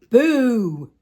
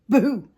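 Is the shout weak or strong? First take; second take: strong; weak. First: The shout is strong and full of air. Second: The shout is weak and short of air.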